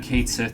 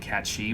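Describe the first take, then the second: First: The first word sounds like 'kate', ending 'sith'. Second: The first word sounds like 'cat', ending 'she'. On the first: The speaker calls it wrong. "I've been saying Kate Sith this whole time" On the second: The speaker calls it right. "I'm pretty sure it's actually Cat She"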